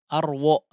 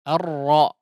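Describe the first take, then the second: First: A w sound follows the r. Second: The doubled r is heavy, with no w. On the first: The speaker calls it wrong. "Jangan ada huruf waw di situ" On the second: The speaker calls it right. "tapi langsung ditebalkan"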